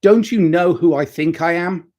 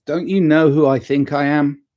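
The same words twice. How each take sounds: First: Higher, louder pompous boast; hammed-up superstar arrogance; mock self-important. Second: Jokey, self-mocking diva line; a hint of superstar airs, laughing at yourself. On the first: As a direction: puff yourself up like a diva superstar. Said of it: "And he's like". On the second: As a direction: play the pampered star, tongue in cheek.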